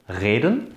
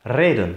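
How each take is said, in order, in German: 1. Das r ist ein Reibelaut weiter hinten. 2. Das r wird mit der Zungenspitze gerollt. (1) "mit dem uvularen Frikativ r" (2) "das alveolare vibrante R"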